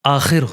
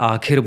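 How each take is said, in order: First: The first consonant is said sharply, with strong friction. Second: The first consonant is said softly, without friction. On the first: This is how it really should be said. The speaker calls it right. "But आखिर होता है" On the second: This is how most people say it. The speaker calls it wrong. "लोग इसको ज़्यादातर आखिर बोलते हैं"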